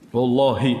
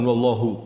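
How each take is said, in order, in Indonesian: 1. Kata ini berakhir dengan vokal 'ee'. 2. Kata ini berakhir dengan vokal yang berbeda. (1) "harokat terakhirnya kasroh"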